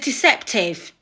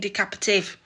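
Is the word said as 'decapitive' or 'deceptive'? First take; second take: deceptive; decapitive. First: It is said with three syllables, like 'deceptive'. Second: It is said with four syllables, like 'decapitive'. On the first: The speaker calls it right. "And it's deceptive" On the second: The speaker calls it wrong. "I'm there saying decapitive"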